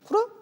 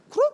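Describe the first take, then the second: First: It is said flatly with an ordinary pitch. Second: It is said excitedly with a raised pitch.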